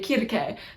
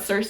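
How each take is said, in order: First: The name is given its ancient Greek pronunciation. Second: The name is given its usual English pronunciation. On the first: "and you say kirke, no one's gonna understand you" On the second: "If you're talking about Circe"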